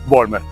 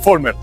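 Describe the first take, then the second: First: The name begins with a V sound. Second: The name begins with an F sound. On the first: "indistintamente se puede decir también Vollmer" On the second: "la V se pronuncia como una F"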